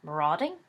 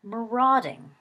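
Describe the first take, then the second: First: Puzzled question. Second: Thoughtful repeat. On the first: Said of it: "Sirius blinked at him". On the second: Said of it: "Sirius repeated thoughtfully". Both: A narrator's reading.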